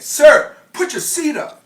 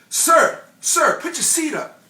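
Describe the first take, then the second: First: It is said louder and more angrily. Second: It is said at a less loud level.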